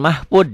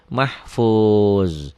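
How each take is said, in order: First: The final consonant sounds like a d. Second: The final consonant sounds like a z. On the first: The speaker calls it wrong. "Jangan mahfud ya" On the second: The speaker calls it right.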